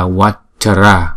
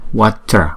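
First: The word is said in three syllables. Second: The word is said in two syllables. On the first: The speaker calls it wrong. "Water là thành ba âm" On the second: The speaker calls it right. "Thì cái chữ Water này là hai âm"

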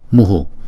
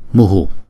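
First: The breath is followed by an echoed u vowel. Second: The same.

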